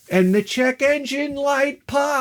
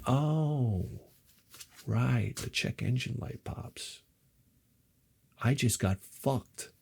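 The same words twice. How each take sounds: First: High, drawn-out singsong reveal; dramatic reveal. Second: Hushed, slow, sinking disbelief; deflated realization. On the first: Narrator reveals engine light coming on, high drawn-out wail. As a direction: raise the pitch and stretch out POPS. Builds to the disaster. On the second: Owner realizing he got fucked, quietly deflated. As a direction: let it sink in, nearly under the breath. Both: Retold or imitated.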